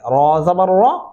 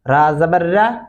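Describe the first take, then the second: First: The letter is said with a thick, heavy sound. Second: The letter is said with a thin, light sound. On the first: The speaker calls it right. "रॉ को मोटा पढ़ेंगे मोटी आवाज में ... ये तरीका दुरुस्त है" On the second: The speaker calls it wrong. "ये तरीका गलत है"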